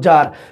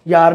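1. ਇਹ ਸ਼ਬਦ 'j' ਦੀ ਆਵਾਜ਼ ਨਾਲ ਸ਼ੁਰੂ ਹੁੰਦਾ ਹੈ। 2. ਇਹ ਸ਼ਬਦ 'y' ਦੀ ਆਵਾਜ਼ ਨਾਲ ਸ਼ੁਰੂ ਹੁੰਦਾ ਹੈ। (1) "ਯਾਰ ਨੂੰ ਜਾਰ" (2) "ਯੈ ਦਾ ਜੈ ਬਣਾਉਣਾ"

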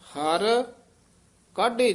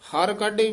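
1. ਹਰ ਸ਼ਬਦ ਤੋਂ ਬਾਅਦ ਥੋੜਾ ਜਿਹਾ ਵਿਸਰਾਮ ਹੈ। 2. ਦੋਵੇਂ ਸ਼ਬਦ ਬਿਨਾਂ ਵਿਸਰਾਮ ਦੇ ਇਕੱਠੇ ਉਚਾਰੇ ਜਾਂਦੇ ਹਨ। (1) "ਹਰ ਪਦ ਤੇ ਵੀ ਠਹਿਰਾ ਦੇ ਦੇਣਾ" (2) "ਹਰ ਕਾਢੇ ਵੀ ਨਹੀਂ ਕਹਿ ਦੇਣਾ"

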